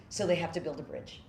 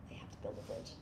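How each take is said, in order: First: Said in the usual way. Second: Whispered repeat. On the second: Real, not acted. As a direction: whisper the line again, much softer.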